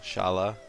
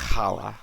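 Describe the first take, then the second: First: It starts with a soft sh sound. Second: It starts with a raspy throat sound. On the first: The speaker calls it wrong. "that's not how you say it" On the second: The speaker calls it right.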